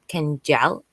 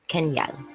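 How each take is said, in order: First: The middle consonant is a J sound. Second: The middle consonant is a Y sound.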